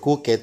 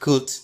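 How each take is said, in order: First: The ending is said as an extra syllable. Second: The ending sounds like a plain t sound. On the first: The speaker calls it wrong. "No vamos a estar diciendo" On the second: The speaker calls it right. "suena como si fuera una T"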